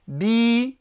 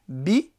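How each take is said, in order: First: The vowel is drawn out long. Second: The vowel is said short. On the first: "j'accentue un petit peu, je tire un petit peu" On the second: "c'est court"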